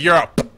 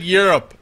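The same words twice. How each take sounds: First: The word is clearly enunciated with a popped p. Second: The word is run together with a soft p. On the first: It sounds like calling someone a poo. The speaker calls it right. "instead of Europe" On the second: It sounds like the name of the continent. The speaker calls it wrong. "you said Europe"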